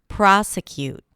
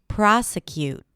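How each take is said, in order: Both takes have the same delivery.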